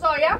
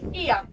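First: The name begins with an oh sound. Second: The name begins with an ee sound. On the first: The speaker calls it wrong. "Not Oia" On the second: The speaker calls it right. "O and I in Greek pronounced like E"

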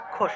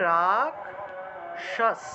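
First: The cluster is not split into k and sh. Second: The cluster is split into k and sh. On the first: This is the everyday Bengali pronunciation. "আমরা তো বাংলায় বললে রাক্ষস" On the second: This is the Sanskrit pronunciation. "সংস্কৃতে এই ক্ষীয়টাকে আসলে ভাঙতে হবে, ক যোগ মূর্ধন্যস্বতে ভেঙে যাবে"

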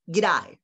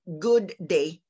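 First: The first word shrinks into one quick syllable. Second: Both words are said fully and separately. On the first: The speaker calls it right. "they usually say" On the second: The speaker calls it wrong. "If we are Filipinos and we're going to say their famous greeting, we typically say"

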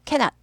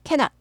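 The two takes are said the same way.

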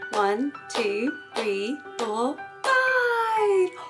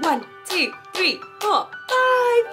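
First: The counting is at a faster pace. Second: The counting is at the fastest pace.

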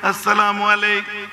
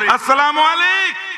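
First: The greeting is said softly. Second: The greeting is said loudly.

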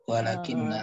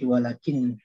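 First: It ends in a doubled n and a vowel. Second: It ends in a single n, no final vowel. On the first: "Kita kembalinya ke asalnya ya walakinna" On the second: "diringankan bacaannya ya jadi walakin"

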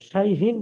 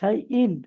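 First: An h sound is heard in the middle. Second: No h sound is heard in the middle. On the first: The speaker calls it wrong. "শাইহীন নয়" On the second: The speaker calls it right.

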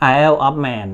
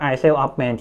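First: It is said in a British-style pronunciation. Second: It is said in a Thai-style pronunciation. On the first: "ถ้าเป็นทางอังกฤษเนี่ยเขาจะพูดว่า" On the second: "คนไทยก็อ่านได้ผมพูดมาผมก็เข้าใจว่า"

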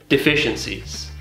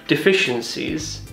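The two takes are said the same way.

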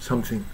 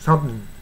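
First: Both syllables are clearly pronounced. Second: Only the first syllable is clearly heard. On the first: "something っていうのが標準的な発音ですが" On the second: "サムしか聞こえないじゃないですかね"

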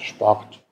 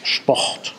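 First: The r is a soft voiced sound. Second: The r is a long voiceless rasping sound. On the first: The speaker is from elsewhere in Germany. "sonst in Deutschland sagt man Sport mit diesem umgedrehten R" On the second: The speaker is from the Rhineland. "eine stimmlose Variante, die man im Rheinland manchmal hört"

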